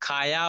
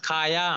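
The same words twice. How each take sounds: Both takes have the same delivery.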